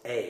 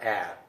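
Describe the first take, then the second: First: The vowel is long, like in 'later'. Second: The vowel is short, unlike in 'later'. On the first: The speaker calls it right. "It's A" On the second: The speaker calls it wrong. "It's not a"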